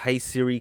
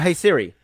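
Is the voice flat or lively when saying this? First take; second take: flat; lively. First: It is said in a flat, monotone voice. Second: It is said in a lively, expressive voice. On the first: The speaker is not really addressing the assistant. "I said it in just the normal monotone voice" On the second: The speaker actually wants to talk to the assistant. "the format that I normally would say it"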